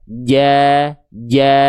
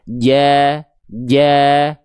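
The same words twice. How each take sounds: Both takes have the same delivery.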